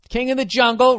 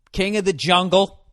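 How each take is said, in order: First: "King of the Jungle" pitched high and louder, "Jungle" stretched; hammed-up. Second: Said in the usual way. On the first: Comic mocking Tarzan, booming it out high. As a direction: announce "King of the Jungle" like a grand movie trailer.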